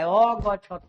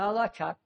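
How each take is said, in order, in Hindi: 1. अंतिम त के बाद एक पूरा स्वर आता है। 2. अंतिम त बिना स्वर के, छोटा बोला जाता है। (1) "अ है इसमें, इसलिए यहाँ इसका पूरा उच्चारण करेंगे" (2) "तो में हलंत है तो तो का थोड़ा उच्चारण करेंगे"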